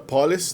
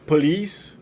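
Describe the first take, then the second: First: The stress is on the first syllable. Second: The stress is on the second syllable. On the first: The speaker calls it wrong. "que é geralmente pronunciada police" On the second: The speaker calls it right. "acentuado no segundo, na segunda sílaba"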